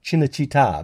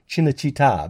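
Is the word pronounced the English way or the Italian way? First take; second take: Italian; Italian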